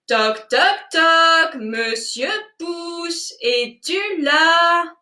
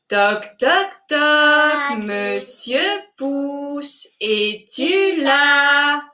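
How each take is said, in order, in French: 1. L'appel est dit encore plus fort. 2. L'appel est dit à volume normal.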